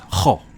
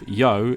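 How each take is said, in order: First: The syllable begins with a breathy H sound. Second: The syllable begins with a Y sound. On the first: The speaker calls it right. "is more of an H, like a like a H" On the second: The speaker calls it wrong. "instead of Yo"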